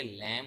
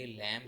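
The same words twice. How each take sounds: First: लैम, ending on M with B silent; correct pronunciation. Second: लैम्ब with the final B sounded; wrong pronunciation. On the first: Teacher gives students the right form: लैम, B silent. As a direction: say लैम with no B at the end. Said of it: "बल्कि लैम होता है". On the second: Teacher shows students the mistake: लैम्ब with B. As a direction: say लैम्ब ending on a voiced B. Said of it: "लैम्ब लफ्ज़ नहीं होता". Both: Shown as a demonstration.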